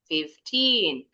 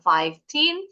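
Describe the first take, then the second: First: The stress is on the second syllable. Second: The stress is on the first syllable. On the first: The speaker calls it right. "tapi fifteen" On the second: The speaker calls it wrong. "Bacanya bukan fifteen"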